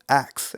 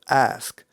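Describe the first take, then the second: First: The k sound comes before the s. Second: The s sound comes before the k.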